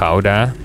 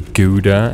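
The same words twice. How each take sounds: First: The word is pronounced in a Dutch-style way. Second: The word is pronounced in the common English way. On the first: The speaker calls it right. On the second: The speaker calls it wrong.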